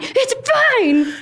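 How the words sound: It is said at a high, strained pitch.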